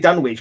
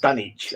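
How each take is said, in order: First: The W sound in the middle is pronounced. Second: The W sound in the middle is silent. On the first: The speaker calls it wrong. "I always say Dunwich" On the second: The speaker calls it right. "it's supposed to be pronounced Dunwich"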